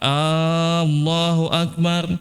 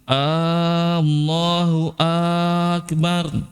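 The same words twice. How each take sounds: First: The first a is drawn out. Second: Both opening a vowels are drawn out. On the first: "kalau A banyak panjang" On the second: "dua-dua hamzanya dipanjangin"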